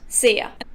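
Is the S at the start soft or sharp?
sharp. The first S is sharp, Austrian style.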